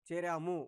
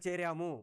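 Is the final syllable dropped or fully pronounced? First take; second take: full; full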